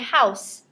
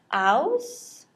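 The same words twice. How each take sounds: First: The word ends with a hissing s sound. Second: The word ends with a buzzing z sound. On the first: The speaker calls it right. "I hear the S E make the S sound" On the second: The speaker calls it wrong. "No, we don't say house"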